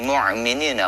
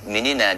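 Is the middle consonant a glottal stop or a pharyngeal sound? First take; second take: pharyngeal; glottal stop. First: The middle consonant is a pharyngeal ain sound. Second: The middle consonant is a glottal stop. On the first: The speaker calls it wrong. "Kalau mu'minina itu pakai ain" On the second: The speaker calls it right. "harusnya pakai hamzah"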